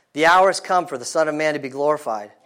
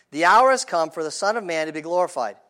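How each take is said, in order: Both takes have the same delivery.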